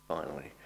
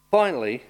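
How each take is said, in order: First: A soft, low, wry Finally; Finally dropped softly, half joking; quiet finally. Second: A loud, high, emphatic Finally. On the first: Preacher promising the end is near, soft and wry. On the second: Preacher announcing the last point, loud. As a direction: announce Finally loudly to the congregation. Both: Real, not acted. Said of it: "I promise now that means five minutes to go".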